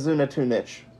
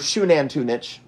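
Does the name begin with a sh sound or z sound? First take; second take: z sound; sh sound. First: The name begins with a z sound. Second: The name begins with a sh sound.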